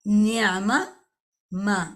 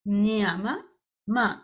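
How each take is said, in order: Both takes have the same delivery.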